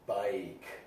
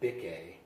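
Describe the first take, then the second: First: The vowel is a long sound. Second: The vowel is a short sound. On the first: The speaker calls it right. "use the hard sound of I" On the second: The speaker calls it wrong. "It's not bique"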